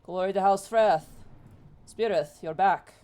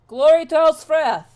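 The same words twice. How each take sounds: First: Loud but barely raised pitch; answering salute. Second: High, very loud battle salute; full-voiced hail, pitched high; rallying cry. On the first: Acted. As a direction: return the salute firmly, as a greeting. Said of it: "he stands up and goes". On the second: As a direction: shout the house salute out across the field. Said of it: "stops here and kinda looks and goes".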